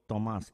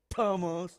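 First: The T is said in the Spanish way. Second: The T is said in the English way. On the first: The speaker calls it right. "You go" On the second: The speaker calls it wrong. "You don't go"

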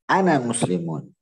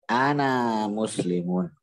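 First: The vowel of the first word is kept short. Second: The vowel of the first word is drawn out long. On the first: The speaker calls it right. "tapi harus ana muslimun" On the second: The speaker calls it wrong. "engkau jangan mengatakan ana muslimun"

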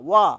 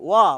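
Both takes have the same delivery.

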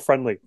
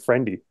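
First: The name is said with an L sound. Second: The name is said without an L sound. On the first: The speaker calls it wrong. "It's not friendly. There's no L" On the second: The speaker calls it right. "There's no L in Friendy"

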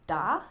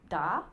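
First: The pitch dips low and then rises. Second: The same.

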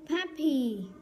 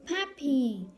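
Both takes have the same delivery.

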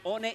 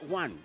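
First: It is read as spelled, with Spanish sounds. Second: It is said the English way, like 'wan'. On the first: This is how the word is written. "escriben one" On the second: This is how the word is actually spoken. "se pronuncia one"

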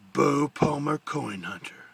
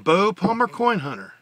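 First: It is said in a rough, gruff, important voice. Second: It is said in a plain, ordinary voice. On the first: "it's got that rough, gruff importance to it" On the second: "that's not how I do his voice on the morning show"

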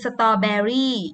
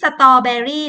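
First: It is said with an English pronunciation. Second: It is said with a Thai-style pronunciation. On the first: "ถ้าอ่านเป็นภาษาอังกฤษคือ" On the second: "ไม่ใช่"

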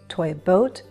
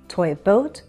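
The two takes are said the same way.

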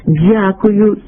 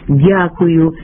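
First: The d has a hissing dz quality. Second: The d is plain with no hissing quality. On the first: The speaker calls it wrong. "поширена серед певної публіки вимова ... не є нормативна" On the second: The speaker calls it right. "замість"

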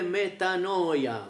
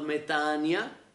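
First: The middle syllable is pronounced 'noy'. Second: The middle syllable is pronounced 'nee'. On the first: This follows the written spelling. "الكلمة اليونانية مكتوبة" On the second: This is how it is said today. "اليوم تلفظ"

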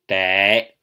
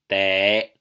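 Both takes have the same delivery.

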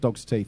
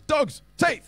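First: It is said flatly, without force. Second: It is said forcefully, like an exclamation.

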